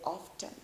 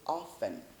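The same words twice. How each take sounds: First: The t sound is clearly pronounced. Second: The t sound is left out entirely. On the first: The speaker calls it wrong. "we don't say often" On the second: The speaker calls it right. "we say often. This T is silent"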